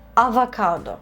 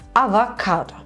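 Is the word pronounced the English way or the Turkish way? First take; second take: Turkish; Turkish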